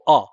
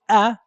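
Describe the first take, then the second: First: The hamza sound is thick and heavy. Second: The hamza sound is light and thin. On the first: The speaker calls it wrong. "they give it um, a kind of a thick quality instead of the the light one" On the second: The speaker calls it right. "instead of going a"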